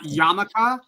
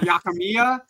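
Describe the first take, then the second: First: The name is said as Ya-ma-ka. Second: The name is said as Ya-ki-mi-ya. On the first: "not Yamaka" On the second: "not Yakimiya"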